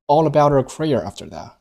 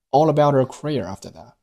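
First: Career stands out, that unreleased; stress on career. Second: Career lifted, that weak with silent t; stress on career. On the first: Teacher repeating stress on career. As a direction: punch career and swallow that. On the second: Teacher modelling stress on career. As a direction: lean on career and let that fade. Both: Shown as a demonstration. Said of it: "Career做重读".

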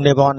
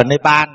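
First: "Nepal" with a rounded "o" in the last syllable; native Nepali pronunciation. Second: Said in the usual way. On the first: Shown as a demonstration. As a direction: say "Nepal" as Ne-pon, as locals do. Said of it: "người dân Nepal này họ đọc là". (đọc "Nepal" thành "Nê-pon" như người bản xứ) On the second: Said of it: "mình đọc là Nepal".

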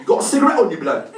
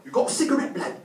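First: High, loud mock youth demand; street youth. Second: Street youth. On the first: Youth asking him for a cigarette, loud pushy voice. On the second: Acted. Youth asking him for a cigarette, high, less forceful voice. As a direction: repeat the request high but easing off. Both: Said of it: "He's like".

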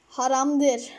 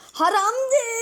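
First: Said in the usual way. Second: Mock high voice. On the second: Shown as a demonstration. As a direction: repeat Haramdır as a funny preachy character. Repeats the word in another voice. (Haramdır yüksek ve yapmacık sesle)

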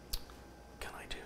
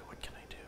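First: Whispered to himself, slow; a worried self-whisper. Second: A second whispered ask to himself; hushed, puzzled self-whisper. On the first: Talking to himself, stuck. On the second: Repeats it to himself. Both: Real, not acted.

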